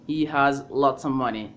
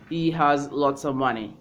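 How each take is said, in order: The two takes are said the same way.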